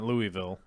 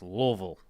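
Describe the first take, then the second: First: The word is said clearly, every syllable spelled out. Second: The word is said mumbled, with syllables run together. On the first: This is not the way locals say it. The speaker calls it wrong. "It's not Louisville" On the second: This is the way locals say it. The speaker calls it right. "It's Louisville. Is how they say it. They put a bunch of food in your mouth"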